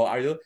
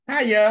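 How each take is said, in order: First: Said in the usual way. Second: "Hiya" high, loud, run together for "How are you"; mock Boston accent. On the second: Shown as a demonstration. Showing how Bostonians say "How are you", high loud Boston-accented "Hiya". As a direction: punch out "Hiya" as an exaggerated Boston greeting. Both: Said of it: "ternyata orang Boston kalau ngomong".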